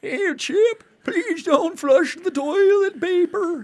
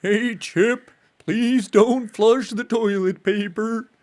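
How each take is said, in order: First: Put-on high, slow, creaky old man. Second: Put-on a lower, slow old man voice. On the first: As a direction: play a frail old man pleading. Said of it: "In an old man voice, tell Chip". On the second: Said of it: "the register is too high".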